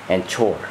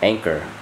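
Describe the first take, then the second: First: The middle consonant is a 'ch' sound. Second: The middle consonant is a 'k' sound. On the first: "they pronounce the C H as ch" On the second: "It says anchor"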